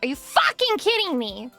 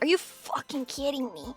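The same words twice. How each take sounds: First: The phrase is yelled loudly. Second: The phrase is said without yelling, more quietly. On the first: "The only time I've ever yelled while I'm alone" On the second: "But I don't usually yell. It's, it's just more like"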